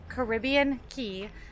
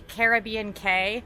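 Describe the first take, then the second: First: The last word sounds like 'key'. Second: The last word sounds like 'kay'. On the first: The speaker calls it right. "This is obviously pronounced Caribbean Key" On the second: The speaker calls it wrong. "the other pronunciation would be Caribbean K, but how silly does that sound?"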